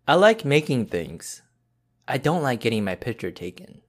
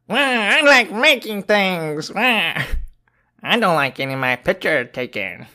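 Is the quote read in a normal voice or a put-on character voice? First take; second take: normal; character voice. First: It is read in the speaker's normal voice. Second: It is read in a put-on cartoonish character voice.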